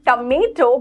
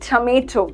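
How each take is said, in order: First: The t is said like the Hindi ट sound. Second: The t is said like an English t. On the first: The speaker calls it wrong. "it is not tomato" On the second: The speaker calls it right. "but it is tomato"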